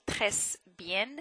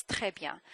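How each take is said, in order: First: "très bien" slowly with the final S and N sounded; overly literal "très bien", every ending voiced; wrong, endings pronounced. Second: "très bien" as treh byan, no S; "très bien" with the endings dropped; silent endings. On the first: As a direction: say "très bien" as tress bee-en. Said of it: "is not très bien". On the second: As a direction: say "très bien" French-style with a nasal ending. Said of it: "know when to pronounce the endings and when not to". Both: Shown as a demonstration.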